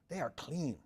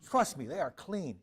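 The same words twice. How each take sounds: First: Said in the usual way. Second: "Trust me, they are clean" slow and louder, leaning on "clean"; firm reassurance, "they are clean" pressed home; emphatic. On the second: Real, not acted. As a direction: insist on "clean", slowing down.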